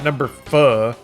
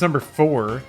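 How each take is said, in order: First: The r at the end of four is dropped. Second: The r at the end of four is pronounced. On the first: The speaker calls it wrong. "Never pronounce any words with R correctly" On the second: The speaker calls it right. "Except it's number four"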